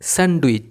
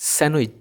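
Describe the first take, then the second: First: The d sound is clearly pronounced. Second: The d sound is left silent. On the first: The speaker calls it wrong. "অনেকে ভুলভাবে উচ্চারণ করে, এটাকে বলে স্যান্ডউইচ" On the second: The speaker calls it right. "কিন্তু এটার উচ্চারণ হবে স্যান্ডউইচ"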